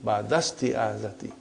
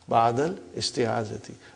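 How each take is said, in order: First: The words run together, dropping the 'i' sound. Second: The 'i' sound is pronounced after 'ba'dal'. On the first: This is how a fluent native speaker says it. The speaker calls it right. "so it will say ba'dasti'adati" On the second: This is a simplified form used while learning. The speaker calls it wrong. "for simplicity, I still feel that while we are learning"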